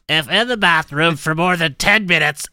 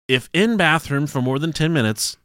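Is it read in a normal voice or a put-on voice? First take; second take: put-on; normal. First: It is read in an imitated writer's voice. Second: It is read in his normal voice.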